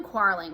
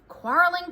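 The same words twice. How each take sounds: First: Said in the usual way. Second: Higher, louder fed-up sigh of a word; mother worn out by the twins; exasperated. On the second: Acted. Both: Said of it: "Missus Russell said to herself".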